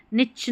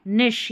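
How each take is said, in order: First: निच ending in a ch sound; wrong pronunciation. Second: निश ending in a sh sound; correct pronunciation. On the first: Teacher shows learners the mistake, निच with ch. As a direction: misread niche as "nitch", निच. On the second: Teacher corrects the word for learners, निश with sh. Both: Shown as a demonstration. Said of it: "निच नहीं निश".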